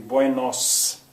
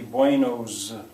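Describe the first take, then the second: First: The final consonant sounds like a hissing s. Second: The final consonant sounds like a buzzing z. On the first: The speaker calls it right. "it's going to be Buenos with an S" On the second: The speaker calls it wrong. "It's not going to be Buenos"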